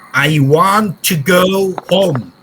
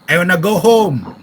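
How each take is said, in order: First: "Want to" is said in full, not reduced. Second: "Want to" is reduced and run together.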